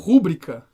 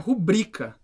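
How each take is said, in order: First: The stress is on the first syllable. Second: The stress is on the second syllable. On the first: The speaker calls it wrong. "Muitas pessoas usam a palavra rubrica como rúbrica" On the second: The speaker calls it right. "a sílaba tônica é no bri"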